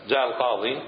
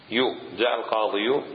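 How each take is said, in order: First: جاء القاضي said cleanly, with no added يو; corrected reading. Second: القاضي with a stretched يو sound on the end; wrong drawn-out ending. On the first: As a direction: say القاضي simply, ending in ي. (نطق صحيح للقاضي بلا مد زائد) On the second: (نطق خاطئ بمد آخر القاضي يو) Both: Shown as a demonstration. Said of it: "لا، ما صار".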